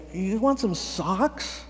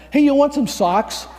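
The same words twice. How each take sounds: First: Slow, drawn-out question rising at the end; silly, awkward offer. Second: Loud, high-pitched call; blurted offer. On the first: Volunteer awkwardly offering socks to a stranger, slow and silly. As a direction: stretch out the offer, sounding a bit silly. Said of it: "kind of silly". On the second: Volunteer offering socks to someone on the street, loud and high. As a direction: pipe up louder and higher with an offer. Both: Retold or imitated.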